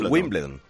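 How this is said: The name is said with English-style sounds. This is how the name is really said. The speaker calls it right. "Se dice Wimbledon"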